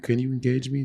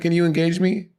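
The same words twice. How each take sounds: First: It is said calmly and sleepily. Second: It is said loudly and energetically.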